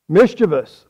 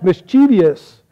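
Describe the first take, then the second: First: It has no extra vowel sound before the ending. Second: It has an extra vowel sound before the ending. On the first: The speaker calls it right. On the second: The speaker calls it wrong.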